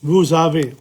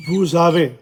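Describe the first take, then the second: First: "Vous avez" run together as "vou-zavez"; "Vous avez" with the z liaison. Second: "Vous avez" linked, z between the words; "Vous avez" said as one word with z; liaison with z. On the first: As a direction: link "Vous avez" with a z sound. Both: Shown as a demonstration. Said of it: "the Z there in the middle".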